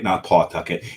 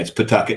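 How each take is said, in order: First: It is said the way outsiders say it. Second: It is said the way locals say it. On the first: This is how people from elsewhere say it. The speaker calls it wrong. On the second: This is how people in the state say it. The speaker calls it right.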